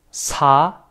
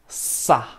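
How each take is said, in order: First: "sa" with a light, relaxed s; plain normal SA. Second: "sa" with a long hissed, tense s. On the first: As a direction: say sa easily, vowel lifted. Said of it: "piensa que sa normal". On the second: Teacher showing students that sound, tense hissed sa. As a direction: hold the s, then a short tight a. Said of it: "es tensa". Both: Shown as a demonstration.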